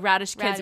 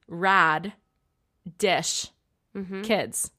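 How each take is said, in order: First: It is said quickly as one run-together word. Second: It is said slowly, broken into separate parts. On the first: "when you say it fast" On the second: "if we can slow it down and break it down"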